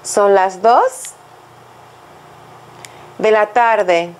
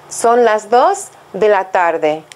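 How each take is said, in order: First: "Son las dos" slowly, a long pause, then "de la tarde"; chunked for repetition. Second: Slow, clear model phrase for learners to copy; slow model sentence. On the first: Teacher prompting students to repeat, slowly in two chunks. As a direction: break it in two with a long gap for students to echo. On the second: Teacher to students, a slow clear model sentence. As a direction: say it slowly and carefully so students can repeat. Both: Shown as a demonstration.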